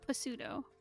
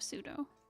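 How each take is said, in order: First: It is read out as it is spelled. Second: It uses the usual standard pronunciation. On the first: This is how many people wrongly say it. The speaker calls it wrong. "I've met so many people who say pseudo instead of" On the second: This is the accepted way to say it. The speaker calls it right. "instead of pseudo"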